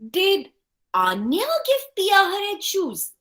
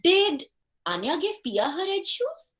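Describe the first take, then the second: First: The word 'Anya' carries the main stress. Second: The word 'did' carries the main stress. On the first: Questions who did the giving. "Or was it Zoe?" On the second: Doubts whether the giving really happened. "Here we will emphasize on the word did"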